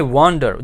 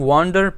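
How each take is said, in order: First: Said in the usual way. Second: Wander split in two, weight on "wan"; firm "wan", pause, falling "der"; stress on first syllable. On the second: Shown as a demonstration. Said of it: "पहला syllable है उस पे हम ज़्यादा जोर".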